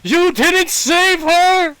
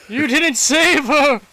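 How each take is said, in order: First: Screamed, much higher and louder, slow; yelling. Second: High, loud anguished cry; anguished outburst. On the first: Father grabbing Asante's tunic, yelling in his face. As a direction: yell it right into his face. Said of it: "and yells in your face". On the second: Father first accusing Asante, in anguish. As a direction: cry it out at him. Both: Acted.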